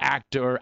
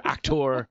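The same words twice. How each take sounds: First: Said in the usual way. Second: "actor" said as "ac-TOR"; theatrical pronunciation. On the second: Shown as a demonstration. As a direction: give "actor" a full, rounded OR ending. Mock-theatrical second take of actor.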